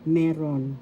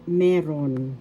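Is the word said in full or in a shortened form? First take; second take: shortened; shortened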